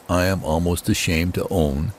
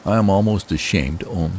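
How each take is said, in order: Both takes have the same delivery.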